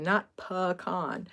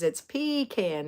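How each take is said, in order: First: "pecan" pulled apart slowly, puh... KAHN; slow, deliberate "pecan" as PUH-KAHN. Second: "pecan" drawn out slowly as PEE-can; slow it down, long PEE, then CAN in "pecan". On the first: Reading out a meme's sign, "pecan" as slow puh-KAHN. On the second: Reading out a meme's sign, "pecan" as slow PEE-can. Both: Retold or imitated. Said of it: "holding a sign that says".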